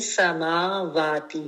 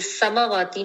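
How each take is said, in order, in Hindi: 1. samawati में 'a' स्वर लंबे बोले जाते हैं। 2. samawati में 'a' स्वर छोटे बोले जाते हैं। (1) "दोनों के ऊपर खड़ा अ, ज़बर है" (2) "ये समावाती नहीं है"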